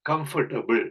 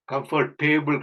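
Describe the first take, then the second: First: "கம்ஃபர்டபிள்" with a short, reduced "ta-bul"; correct pronunciation. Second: "கம்ஃபர்டேபிள்" with a long TAY, like "table"; wrong pronunciation. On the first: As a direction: say "கம்ஃபர்டபிள்" as KUM-fur-tuh-bul. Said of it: "கம்ஃபர்டபிள் தான் சரியான உச்சரிப்பு". ("கம்ஃபர்டபிள்" என்பதில் ட குறிலாக) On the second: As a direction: mispronounce "கம்ஃபர்டேபிள்" as comfor-TAY-bul. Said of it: "அது சரியான உச்சரிப்பு கிடையாது". ("கம்ஃபர்டேபிள்" என்பதில் டே நெடிலாக) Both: Shown as a demonstration.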